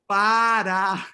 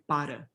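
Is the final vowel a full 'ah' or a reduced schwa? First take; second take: full ah; schwa. First: The final vowel is a full open ah. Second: The final vowel is a reduced schwa. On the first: The speaker wants to be sure the listener hears. "then you have a full-blown ah" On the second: It is ordinary casual speech. "in colloquial speech, just speaking, you say para"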